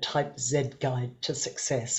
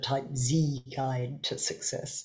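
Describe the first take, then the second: First: The letter Z is said in a non-American way. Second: The letter Z is said the American way.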